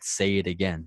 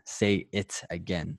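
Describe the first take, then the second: First: The T in 'it' sounds like a D. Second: The T in 'it' is a hard T. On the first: "You said it with a D, not a T" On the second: "with a hard T"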